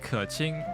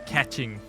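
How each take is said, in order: First: The name is said with Chinese-like sounds. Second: The name is said with English-like sounds. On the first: This is the real pronunciation. The speaker calls it right. "it should be Keqing" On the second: This is how the dub says it. The speaker calls it wrong. "they say catching"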